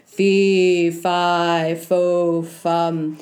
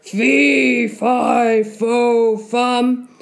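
First: Big deep voice. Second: Loud giant, pitched up at the start; loud muttering. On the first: Giant above Jack's head, deep rumbling chant. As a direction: boom it slowly like a deep giant. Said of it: "he heard a big, deep voice". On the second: Giant muttering above tense Jack, loud chant. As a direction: boom out each word as a grumbling giant. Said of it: "muttering loud". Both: Acted.

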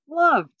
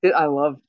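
First: Loved said higher and louder; stressed loved. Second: Said in the usual way. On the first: Real, not acted. Praising the season opener to her co-host, loved punched high and loud. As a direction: lean hard on the second loved.

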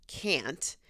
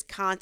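First: Said in the usual way. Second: CAN'T with a broad ah; someone's can't. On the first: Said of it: "instead of". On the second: Retold or imitated. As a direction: say can't as cahnt. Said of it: "who says".

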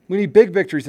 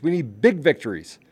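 First: Big punched louder and higher; emphatic repeat. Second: Said in the usual way. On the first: Real, not acted. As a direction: hit big hard the second time.

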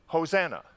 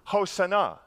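First: Hosanna said as ho-ZAN-uh; English pronunciation. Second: Hosanna said as ho-sah-NAH; Hebrew pronunciation. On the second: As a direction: say Hosanna the Hebrew way, "ah" in the middle and end. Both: Shown as a demonstration. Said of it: "or as we say it".

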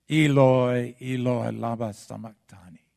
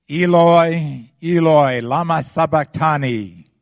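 First: Cry fading away. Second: Crying out, much higher and louder; full-voiced cry of despair; loud anguished cry. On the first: Acted. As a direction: let the cry drain out of him. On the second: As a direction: cry it out to heaven in agony. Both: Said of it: "in a loud voice".

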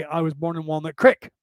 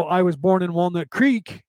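First: "Creek" said as crick, short i; crick pronunciation. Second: Said in the usual way. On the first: Retold or imitated. Grandfather's way of saying the town, "Creek" as crick. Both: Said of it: "he would say".

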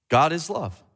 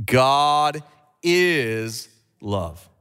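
First: Said in the usual way. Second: God ... is ... love, drawn out slowly. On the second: Shown as a demonstration. Preacher repeating God is love very slowly with church. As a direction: stretch every word of God is love. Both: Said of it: "Let's do it again".

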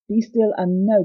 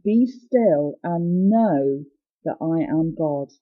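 First: Said in the usual way. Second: Drawn out very slowly, voice sinking at the end; slow solemn delivery. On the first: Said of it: "and have to know". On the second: Shown as a demonstration. Preacher voicing God's command to listeners, slow and hushed. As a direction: let each word of God's command settle slowly. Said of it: "God is saying".

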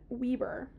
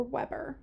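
First: "Weber" said as WEE-ber; "Weber" with a long ee, English style; English reading. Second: "Weber" said as WEB-er with a short e; "Weber" corrected to WEB-er; French reading. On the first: Reading the name off the page: "Weber" as WEE-ber. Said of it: "It only has one B". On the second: Correcting herself for her co-host: "Weber" as WEB-er. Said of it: "she's French". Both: Shown as a demonstration.

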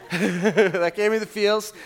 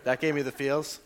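First: Laughing. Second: Said in the usual way. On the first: Shown as a demonstration. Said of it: "same line said before plainly". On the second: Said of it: "laughing repeat of the line".

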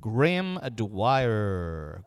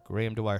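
First: Very slow stretched name; drawn-out test. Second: Said in the usual way. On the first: Shown as a demonstration. Testing the mic, very slow drawn-out name. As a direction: stretch each syllable out. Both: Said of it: "just talking your normal tone".

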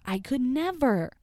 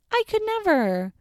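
First: Said in the usual way. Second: Squeaky high disbelief; high squeal. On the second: Real, not acted. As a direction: squeal it out in shock. Repeats the reaction, squealing.

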